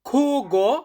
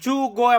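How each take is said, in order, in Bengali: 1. শব্দটি একটি গলার কর্কশ kh ধ্বনি দিয়ে শুরু হয়। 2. শব্দটি একটি j ধ্বনি দিয়ে শুরু হয়। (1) "এটাকে স্প্যানিশ ভাষাতে বলা হয় খুগো" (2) "জুগো এমনটা উচ্চারণ করবেন না"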